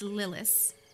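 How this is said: The name is said with an American pronunciation. The speaker calls it wrong. "if you want to say it like I say it"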